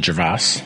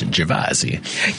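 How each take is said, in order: First: The surname is pronounced the American way. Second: The surname is pronounced the Italian way. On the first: This is the adapted form used in America. "It's been Americanized as" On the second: This is the family's original form of the name. "the original pronunciation of my name in Italian"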